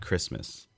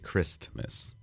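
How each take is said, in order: First: The T in the middle is dropped. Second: The T in the middle is clearly pronounced. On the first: The speaker calls it wrong. "not Christmas" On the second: The speaker calls it right. "I do really make sure I pronounce the T"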